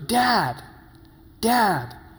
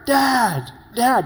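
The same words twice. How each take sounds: First: It is called out more quietly. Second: It is called out more loudly.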